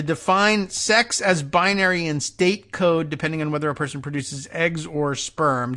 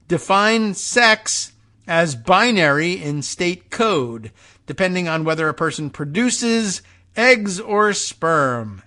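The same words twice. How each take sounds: First: Said in the usual way. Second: "sex", "binary" and "eggs or sperm" punched slowly and deliberately; emphatic stress. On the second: Real, not acted. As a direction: lean hard on "sex", "binary" and "eggs or sperm", spacing them out. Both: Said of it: "put the emphasis on it".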